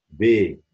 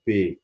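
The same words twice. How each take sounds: First: بي as voiced "bé"; French letter B. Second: بي as voiceless "pé"; French letter P. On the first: Teacher contrasting B with P, voiced "bé". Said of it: "لكن دي اسمها بي". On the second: Teacher contrasting P with B, voiceless "pé". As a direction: say بي with a popped P, "pé". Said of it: "لكن هنا بي". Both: Shown as a demonstration.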